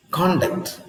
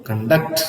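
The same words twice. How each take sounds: First: Conduct stressed up front, CON-duct; stress on first syllable. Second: Conduct stressed on the end, con-DUCT; "conduct" with a light first syllable and a strong DUCT; stress on second syllable. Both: Shown as a demonstration. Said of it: "stress on the first syllable".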